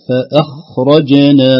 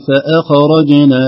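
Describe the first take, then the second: First: Slow فأخرجنا with a smooth kha and bounced jim; correct, slow. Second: فأخرجنا with a bouncing kha; wrong echoed kha. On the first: Teacher correcting the mistake, slow clean reading. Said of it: "لا، فأخرجنا". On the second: Teacher imitating a mistaken reciter, echoed kha. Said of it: "فيقلقل الخاء". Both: Shown as a demonstration.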